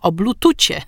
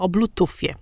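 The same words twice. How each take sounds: First: The last consonant is a soft ch sound. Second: The last consonant is a soft f sound.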